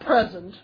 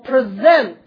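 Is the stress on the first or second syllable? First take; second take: first; second. First: The stress is on the first syllable. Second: The stress is on the second syllable. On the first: It names a gift. "Not present, that's a noun" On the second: It means to introduce someone formally. "present, the verb"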